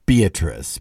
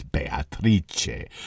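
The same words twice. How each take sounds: First: Said in the usual way. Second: Beatrice said the Italian way, bay-ah-TREE-chay, low and soft; Italian pronunciation. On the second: Shown as a demonstration. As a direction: give Beatrice its Italian sound, four syllables ending in chay.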